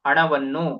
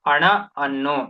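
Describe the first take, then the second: First: The words run together into one word. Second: A short pause separates the two words. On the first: The words are in close contact and merge. "ವಿರಾಮ ಕೊಡ್ದಲೆ ಹೇಳ್ದಾಗ" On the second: There is no close contact between the words. "ಅಲ್ಲಿ ನಾವು ಒಂದ್ ವಿರಾಮ ಕೊಡ್ತಿದೀವಿ"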